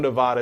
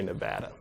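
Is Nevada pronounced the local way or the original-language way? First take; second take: original-language; local. First: It is pronounced the original-language way. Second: It is pronounced the way local residents say it. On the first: This follows the source language of the name. "Nevada is how you pronounce it in the language" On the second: This is how residents of the state say it. "people who live in Nevada say Nevada"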